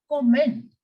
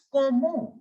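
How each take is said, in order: First: "comment" with the final nt sounded; English-style pronunciation. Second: "comment" as ko-mo, T silent; French pronunciation. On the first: Teacher showing the wrong French reading, English-style "comment". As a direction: say "comment" as the English word, T audible. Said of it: "it is not comment". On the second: Teacher correcting to French, silent-T "comment". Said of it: "The T in the end will remain completely silent". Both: Shown as a demonstration.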